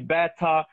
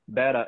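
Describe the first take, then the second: First: It is said in a British accent. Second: It is said in an American accent.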